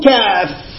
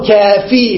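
First: The word ends on the f sound. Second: The word ends with a long ee vowel. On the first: "إما يقف على الفاء" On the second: "وإما أن يرجع الياء وهذه أكثر احتماله"

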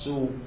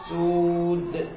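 First: The final consonant is left unpronounced. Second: The final consonant is clearly pronounced. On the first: The speaker calls it wrong. "من دون لفظ الحرف الأخير" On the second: The speaker calls it right. "فبين الحرف الأخير"

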